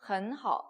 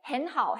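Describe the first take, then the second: First: Hen is said with an 'uh' vowel. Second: Hen is said with an 'e' vowel, Japanese-style.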